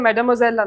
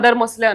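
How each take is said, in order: First: It is said as 'mad-mwa-zel', the French way. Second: It is said as 'mother mosle', an anglicized way. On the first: The speaker calls it right. "French ಅಲ್ಲಿ ಯಂಗ್ ಲೇಡಿಗೆ ಮೆಡಮೊಸೆಲ್ ಅಂತಾರಲ್ಲ" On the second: The speaker calls it wrong. "ಇವರು ಮದರ್ ಮೊಸ್ಲೆ ಮದರ್ ಮೊಸ್ಲೆ ಅನ್ನೋರು"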